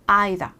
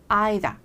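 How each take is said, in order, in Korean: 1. 영국식 억양으로 말한 거예요. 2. 영국식 억양으로 말한 거예요.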